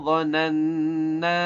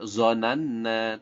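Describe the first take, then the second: First: The first consonant sounds thick and heavy. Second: The first consonant is a plain z sound. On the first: The speaker calls it right. "Jadi suaranya lebih tebal" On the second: The speaker calls it wrong. "bukan zonanna"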